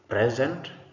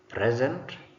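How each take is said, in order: No difference in how they are said.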